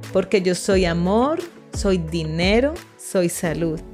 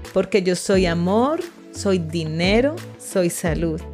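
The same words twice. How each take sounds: Both takes have the same delivery.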